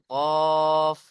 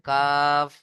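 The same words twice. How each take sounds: First: কফ held long from the tongue root; back-of-tongue qaf. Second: কাফ held long, just forward of the tongue root; more forward kaf. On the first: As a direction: sound a drawn-out কফ far back on the palate. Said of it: "জিভের গোড়া তার বরাবর". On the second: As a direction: draw out কাফ a little forward on the palate. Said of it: "জিভের গোড়া হতে একটু আগে". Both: Shown as a demonstration.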